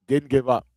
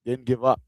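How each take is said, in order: Both takes have the same delivery.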